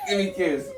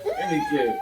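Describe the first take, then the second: First: Said in the usual way. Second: Squeaky playful high voice; silly high voice. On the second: Pretend. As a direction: coax in a goofy squeak. Dad playfully coaxing his son.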